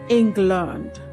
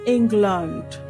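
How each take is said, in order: The two takes are said the same way.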